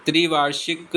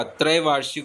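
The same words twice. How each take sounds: First: त्रिवार्षिक begun with "tri"; wrong first vowel. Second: त्रैवार्षिक begun with "trai"; correct first vowel. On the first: Teacher showing the mistake, त्रिवार्षिक with "tri". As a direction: say i after tr in त्रिवार्षिक. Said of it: "त्रिवार्षिक नहीं होता". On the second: Teacher giving the correction, त्रैवार्षिक with "trai". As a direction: say the ai diphthong in त्रैवार्षिक. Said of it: "त्रैवार्षिक होता है". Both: Shown as a demonstration.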